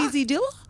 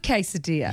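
First: The first syllable sounds like 'kwee'. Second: The first syllable sounds like 'kay'. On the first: The speaker calls it wrong. "I love listening to people who can't pronounce that" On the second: The speaker calls it right. "I love quesadilla"

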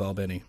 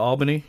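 First: It is said the local Georgia way. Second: It is said the non-Georgia way. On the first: The speaker is from the area. The speaker calls it right. "Is that how they really pronounce that?" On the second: The speaker is not from the area. The speaker calls it wrong. "you're obviously not from Georgia"

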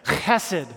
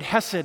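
First: It begins with a rough, raspy throat sound. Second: It begins with a soft, plain h sound.

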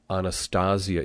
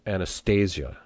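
First: It has Latin vowels and a hard t. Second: It has English-style vowels and a soft th. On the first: The speaker calls it right. "this is Latin, so we use our Latin vowels. And a th is hard" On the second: The speaker calls it wrong.

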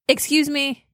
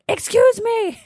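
First: It is said at a normal, soft volume. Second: It is said at its loudest.

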